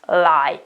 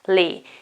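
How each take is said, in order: First: The vowel sounds like 'eye'. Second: The vowel sounds like 'ee'. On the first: This is the standard, common pronunciation. "you just use the first one, which is lie" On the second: This is a rare American pronunciation. "an American pronunciation which is extremely rare"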